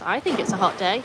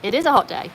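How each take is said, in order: First: Rising like a question; question tune. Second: Falling statement tune; plain statement. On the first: Reading a statement aloud as a question. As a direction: say it as if asking. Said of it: "I read that as if it was a question". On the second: Correcting herself to a plain statement. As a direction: state it flatly as a fact. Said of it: "It was just a sentence". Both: Shown as a demonstration.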